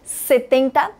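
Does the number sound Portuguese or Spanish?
Spanish. It is said with a Spanish pronunciation. The speaker calls it right. "você fala 70"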